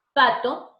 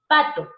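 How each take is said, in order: First: Pato with a sharp p stop, then the a; demo word. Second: Pato with a sharp p stop; demo word. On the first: Teacher repeats the voiceless p in pato. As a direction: clip the p in pato hard. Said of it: "como que se detiene". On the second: Teacher shows the voiceless p in Pato. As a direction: clip the p in Pato. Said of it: "date cuenta cuando dices". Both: Shown as a demonstration.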